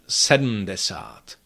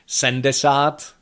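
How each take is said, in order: First: The first part is said with d and syllabic m. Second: The first part is reduced to a plain n. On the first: It sounds very formal. "very formal pronunciation" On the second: It is a sloppy personal habit. "which is completely wrong"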